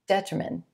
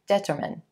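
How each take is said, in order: First: The stress is on the first syllable. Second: The stress is on the first syllable.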